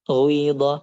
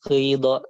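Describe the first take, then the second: First: The first vowel is rounded toward u. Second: The first vowel is a pure i sound. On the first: "dibacanya pakai waw kayak waw" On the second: "tulisannya pakai ya"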